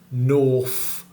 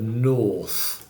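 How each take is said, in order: First: The final th is said as an f. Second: The final th is said as th. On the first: "T H fronting would be saying" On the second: "instead of"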